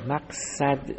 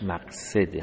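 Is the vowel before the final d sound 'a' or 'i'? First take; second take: a; i. First: The vowel before the final d is 'a'. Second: The vowel before the final d is 'i'. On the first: The speaker calls it wrong. "مقصد تعبیر درستی نیست" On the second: The speaker calls it right. "به کسر صاد باید خونده بشه"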